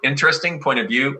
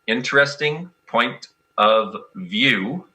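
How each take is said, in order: First: The phrase is spoken at a quicker pace. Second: The phrase is spoken at a slower pace.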